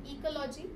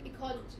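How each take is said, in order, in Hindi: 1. ज़ोर दूसरे के अलावा किसी और अक्षर पर है। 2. ज़ोर दूसरे अक्षर पर है। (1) "I'm not saying ecology" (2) "I'm saying ecology, right? The word C is stress"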